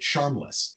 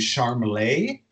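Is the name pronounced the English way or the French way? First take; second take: English; French. First: The name is read as the English word charmless. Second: The name is given a French pronunciation. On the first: The name is read as it is spelled. The speaker calls it wrong. "always read it Charmless" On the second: This is how the parents meant the name. The speaker calls it right. "like with a French pronunciation"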